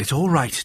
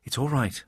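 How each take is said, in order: First: Said in the usual way. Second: Softer reassuring murmur; calm her down gently; soothing. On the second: A narrator's reading. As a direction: narrator soothing the frightened maid softly. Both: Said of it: "I soothed".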